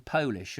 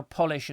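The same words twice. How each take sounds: First: Polish said POH-lish, as in the nationality; long-O Polish. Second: Polish said POL-ish, as in shoe polish; short-O Polish. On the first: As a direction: say "Polish" with a long O, like "pole-ish". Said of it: "but spelt differently". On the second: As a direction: say "Polish" with a short first vowel, like the wax. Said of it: "are actually pronounced the same". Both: Shown as a demonstration.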